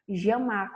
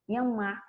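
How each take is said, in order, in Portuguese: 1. O duplo L soa como 'zh'. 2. O duplo L soa como 'y'. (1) "com som de J" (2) "com som de I"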